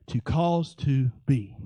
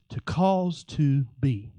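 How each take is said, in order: Both takes have the same delivery.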